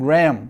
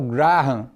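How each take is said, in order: First: The name is given its original, non-Brazilian pronunciation. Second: The name is given the usual Brazilian pronunciation. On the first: "Na verdade a pronúncia é" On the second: "aqui no Brasil muita gente se habituou a usar"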